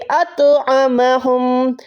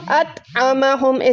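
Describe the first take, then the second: First: The t is heavy, with an echoing bounce. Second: The t is light, with no echo. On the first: "लेकिन तो को अभी हमने लौटाना है।" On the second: "अगर यहाँ पर दो नुक्तों वाला ता होता उसको हम अत आमा हम ऐसे पढ़ते"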